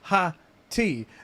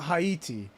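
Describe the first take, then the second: First: The first syllable sounds like 'hat'. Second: The first syllable sounds like 'hay'. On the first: The speaker calls it right. "Hattie is pronounced Ha-T" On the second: The speaker calls it wrong. "not Haiti"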